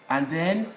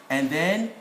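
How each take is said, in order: The two takes are said the same way.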